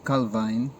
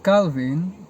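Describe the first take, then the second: First: The name has a Dutch pronunciation. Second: The name has an English pronunciation.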